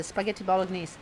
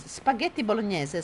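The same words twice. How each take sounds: First: "spaghetti bolognese" anglicised, ending in "neez"; English pronunciation. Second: "spaghetti bolognese" with Italian "nyeh-zeh" ending; Italian pronunciation. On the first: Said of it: "Bolognese is not just a sauce". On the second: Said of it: "spaghetti bolognese doesn't exist". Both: Shown as a demonstration.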